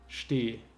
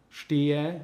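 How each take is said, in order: First: The final e sound is dropped. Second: The final e sound is pronounced.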